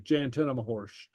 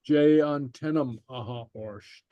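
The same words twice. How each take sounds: First: "Jay on tenam horsht" with "aha orsht" merged into "horsht"; contracted, run together. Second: "Jay on tenam aha orsht" slowly, word by word; slow, separated words. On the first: Teacher shows how somebody says it, contracted and run together. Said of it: "It'll be run together". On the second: Teacher reads for learners to repeat, slow and separated. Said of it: "I'll read it slowly". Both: Shown as a demonstration.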